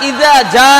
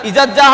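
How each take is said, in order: First: The glottal catch is pronounced, separating the words. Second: The glottal catch is dropped; the words run together. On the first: The speaker calls it right. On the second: The speaker calls it wrong.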